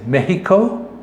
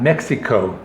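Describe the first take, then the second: First: The word is said with a Spanish pronunciation. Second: The word is said with an English pronunciation. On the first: The speaker calls it right. "the correct pronunciation is Mexico" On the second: The speaker calls it wrong. "and not Mexico"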